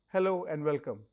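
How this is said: It is said in a neutral tone.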